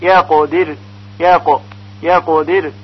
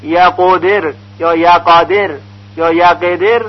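First: یقدر with a ق that takes no vowel; correct vowelless qaf. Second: یقدر with a vowel added after the ق; wrong vowelled qaf. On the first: Teacher modelling the correct reading of یقدر. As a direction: keep the ق of یقدر still, no vowel. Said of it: "باید با سکون ادا بشه". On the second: Teacher showing common wrong readings. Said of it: "اینها همه غلط هست". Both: Shown as a demonstration.

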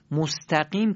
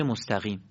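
First: مستقیم with a firm q stop, "mostaqim"; correct hard qaf. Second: مستقیم with a slack gh for the q, "mostaghim"; loose qaf. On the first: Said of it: "مستقیم که با قافه". («مستقیم» با قاف سفت و درست) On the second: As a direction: loosen the ق of مستقیم into a soft ghayn. («مستقیم» با قاف شل، «مستغیم») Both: Shown as a demonstration.

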